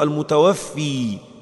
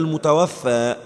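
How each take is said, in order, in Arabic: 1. تنتهي الكلمة بحرف المد 'ee'. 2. تنتهي الكلمة بحرف المد الطويل 'aa'. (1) "بعض الناس بيقولوا المتوفي بكسر ليه، لا غلط" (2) "هي المتوفى"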